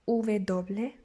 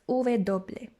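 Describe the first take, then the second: Both takes have the same delivery.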